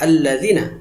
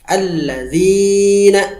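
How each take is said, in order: First: The zi vowel is cut short. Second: The zi vowel is held long. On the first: The speaker calls it wrong. "Jangan dibaca pendek" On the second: The speaker calls it right. "Panjangkan dua harokat pada lafaz zi"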